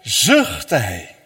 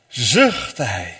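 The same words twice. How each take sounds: First: Sighed. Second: Said in the usual way. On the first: Shown as a demonstration. Preacher showing how Jesus sighed, sighed out low. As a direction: sigh the words out low. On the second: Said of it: "terwijl hij opkeek naar de hemel".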